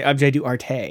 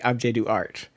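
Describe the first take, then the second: First: The last word ends with a vowel sound. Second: The last word ends on the t sound. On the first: The speaker calls it wrong. "you don't say objet d'arte" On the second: The speaker calls it right. "you say objet d'art"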